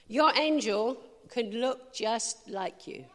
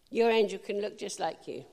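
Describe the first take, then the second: First: Slow, weighty first take, every word drawn out; slow emphatic. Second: Said in the usual way. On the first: Shown as a demonstration. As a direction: lay the line down slowly for emphasis.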